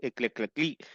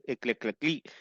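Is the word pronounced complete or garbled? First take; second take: garbled; garbled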